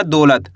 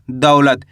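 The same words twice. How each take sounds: First: दौलत said as "दोलत" with a plain o; दौलत mispronounced as dolat on purpose; wrong o sound. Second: दौलत said "दउलत" with an open au glide; दौलत with a clear औ diphthong, dropped low; teacher's correct दौलत, au opened wide; correct au sound. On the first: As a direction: demo the wrong दौलत with o instead of au. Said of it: "ऐसे नहीं पढ़ना". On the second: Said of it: "ऐसे नहीं पढ़ना दौलत". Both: Shown as a demonstration.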